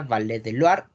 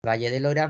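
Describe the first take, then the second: First: Valle del Loire as "valé de luar"; French version of Valle del Loire; French pronunciation. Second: Said in the usual way. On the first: Shown as a demonstration. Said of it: "Valle del Loira, Valle del Loire". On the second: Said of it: "Valle del Loire".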